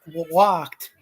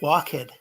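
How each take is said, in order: First: The ending joins the word in one syllable. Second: The ending is said as a separate syllable. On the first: "if you already walk walked" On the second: "that used to be like walked"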